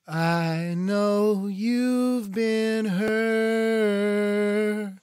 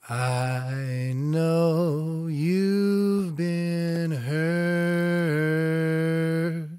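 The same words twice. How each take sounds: First: It is said at a higher pitch. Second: It is said at a lower pitch.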